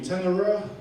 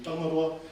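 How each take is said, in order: First: The name is said with a Pākehā accent. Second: The name is said in Tūhoe dialect.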